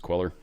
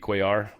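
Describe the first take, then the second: First: The name is pronounced the anglicized way. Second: The name is pronounced the Spanish way. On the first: This is how most people say it. "everyone says Queller" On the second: "If he is, it would be Cuellar"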